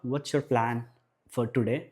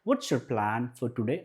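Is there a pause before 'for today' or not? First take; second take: pause; no pause. First: There is a pause before 'for today'. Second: It is said in one go without pause.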